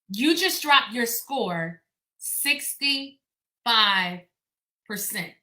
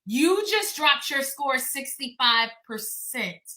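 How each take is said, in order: First: It is said slowly. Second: It is said at a normal pace.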